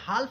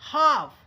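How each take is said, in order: First: The L sound is pronounced. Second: The L sound is silent. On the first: The speaker calls it wrong. "हाल्फ नहीं पढ़ेंगे" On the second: The speaker calls it right. "यल silent रहता है"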